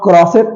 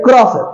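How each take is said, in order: First: Crosset with final T sounded; wrong pronunciation. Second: Crosset as "kro-se", no T; silent final T. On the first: Teacher showing crochet done wrong, wrong pronunciation. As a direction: close crosset on a T, "kro-set". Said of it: "it's not crosset". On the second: Teacher showing where to stop, silent final T. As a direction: stop crosset on the open vowel. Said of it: "stop at the sound of T". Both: Shown as a demonstration.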